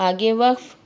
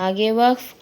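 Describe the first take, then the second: No difference in how they are said.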